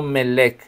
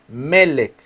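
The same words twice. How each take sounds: First: Melech wrongly stressed on the end, me-LECH; wrong stress, last syllable. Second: Melech with the stress on ME; stress on first syllable. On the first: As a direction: shift the accent of Melech to its second E. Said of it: "no Melech". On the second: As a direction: say Melech as MÉ-lech, accent on the first E. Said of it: "tiene acento en la primera". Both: Shown as a demonstration.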